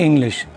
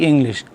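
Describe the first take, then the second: The two takes are said the same way.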